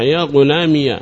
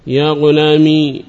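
First: يا غلامي said as "ya ghulāmiya"; opened final ya. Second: يا غلامي drawn out to a long ī; still final ya. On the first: Teacher illustrating the second dialect, يا غلامي ending in -iya. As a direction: finish يا غلامي with ya plus short a. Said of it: "إثبات الياء مفتوحة". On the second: Teacher illustrating the first dialect, يا غلامي ending in long ī. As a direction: hold the last ī of يا غلامي without a following vowel. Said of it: "إثبات الياء التي أضيف إليها ساكنة". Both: Shown as a demonstration.

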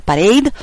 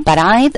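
First: Said in the usual way. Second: Parade said as "pa-RIDE", rhyming with Pride; mispronounced Parade. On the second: Real, not acted. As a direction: slip on Parade, second syllable like "eye". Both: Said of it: "eh, Parade".

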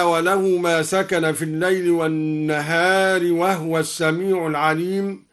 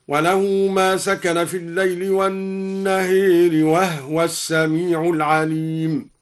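First: Said in the usual way. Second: والنهار with the final vowel leaned toward e, وهو as wahwa; Duri reading. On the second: Shown as a demonstration. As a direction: imala on والنهار and silent ha in وهو. (إمالة النهار وإسكان هاء وهو) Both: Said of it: "أمال النهار وأسكن الهاء هكذا".

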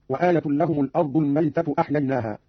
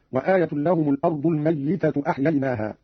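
First: Said in the usual way. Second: الميتة said "al-mayyitatu", with doubled y; doubled yaa in الميتة. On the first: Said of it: "قرأ قالون بتشديد الياء". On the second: Shown as a demonstration. Teacher shows Qalun's reading, الميتة as "al-mayyitatu". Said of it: "بتشديد الياء هكذا".

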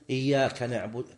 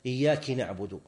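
First: "إياك" ending in a clear a, iyyaka; correct iyyaka. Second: "إياك" ending in i, iyyaki, the meaning-changing slip; wrong iyyaki. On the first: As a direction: say "إياك" with a short a at the end. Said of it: "لو قال مثلًا". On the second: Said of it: "هذا يحيل". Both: Shown as a demonstration.

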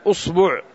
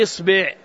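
First: أصبع said as "usbu'", u in both syllables; u-vowel form. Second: إصبع said as "isbi'", i in both syllables; i-vowel form. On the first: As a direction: say أصبع with a short u after hamza and ba. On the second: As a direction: say إصبع with a short i after hamza and ba. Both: Shown as a demonstration. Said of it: "هل يقال إصبع أو يقال أصبع".

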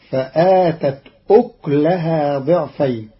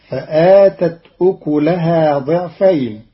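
First: أكلها said "uklahaa", no vowel on the k; vowelless kaf. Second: Said in the usual way. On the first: Shown as a demonstration. Teacher shows Qalun's reading, أكلها with silent-vowel kaf. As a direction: close the k of أكلها straight onto the l. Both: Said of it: "بإسكان الكاف".

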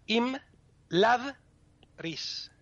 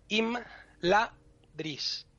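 First: Im, lad, ris split with lad kept whole and high; Elvish syllable split. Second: Im, la, dris split into three beats with la apart; Spanish syllable split. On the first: Teacher showing the Elvish syllable cut, slow deliberate syllables. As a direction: pause after lad in im, lad, ris. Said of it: "En élfico se cortan". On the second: Teacher splitting a name into Castilian syllables, slow deliberate syllables. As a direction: break the word im, la, dris, Castilian style. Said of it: "las sílabas normalmente se cortarían". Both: Shown as a demonstration.

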